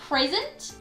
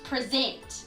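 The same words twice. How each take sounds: First: The stress is on the first syllable. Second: The stress is on the second syllable. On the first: It is a noun meaning a gift. "that is a noun, so I stressed the first syllable" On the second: It is a verb meaning to show or talk about. "I stressed the second syllable"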